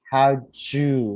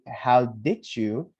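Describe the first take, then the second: First: The words blend into a 'jew' sound. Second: Each word is said fully and separately. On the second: "she doesn't really say, how did you?"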